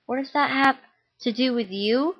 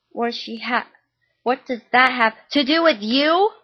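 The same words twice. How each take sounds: First: Raised, higher angry question; mom yelling. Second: Louder, higher furious yell; mom yelling. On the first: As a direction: throw the question at him in anger. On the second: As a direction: yell it at your son in fury. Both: Acted. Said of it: "she yelled".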